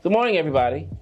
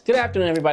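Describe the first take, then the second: First: It has a varied, less monotonous rhythm. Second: It is fast with a monotonous rhythm.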